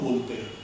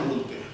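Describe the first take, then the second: Both takes have the same delivery.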